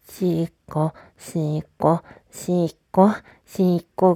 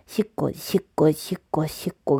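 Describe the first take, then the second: First: The words are repeated at a slow tempo. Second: The words are repeated at a quick tempo. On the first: "ちょっと遅い方がいいのかな" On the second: "今はどんぐらいかっていうと"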